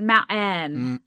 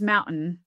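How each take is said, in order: First: The second-syllable vowel is clearly pronounced. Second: The second-syllable vowel is reduced after a glottal stop. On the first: "that vowel that's in that second syllable that became a little more articulated" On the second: "Not just mountain"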